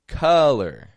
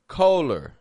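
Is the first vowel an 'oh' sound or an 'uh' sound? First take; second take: uh; oh. First: The first vowel is a short 'uh' sound. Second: The first vowel is an 'oh' sound. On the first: The speaker calls it right. "They're all getting an sound, just a U" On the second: The speaker calls it wrong. "trying to make their sound match what their eyes are seeing"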